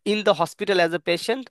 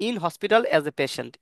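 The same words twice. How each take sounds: First: "the" lifted with a rise, slow and careful; stress on the. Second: Said in the usual way. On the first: Shown as a demonstration. Teacher stressing "the" to contrast it with the bare form. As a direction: lean on "the" in "in the hospital". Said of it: "যেমন specific hospital".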